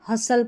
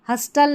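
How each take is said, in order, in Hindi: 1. बीच में t की ध्वनि मौन होती है। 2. बीच में t की ध्वनि उच्चारित होती है। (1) "हसल पढ़ना है, टी साइलेंट है" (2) "हस्टल नहीं"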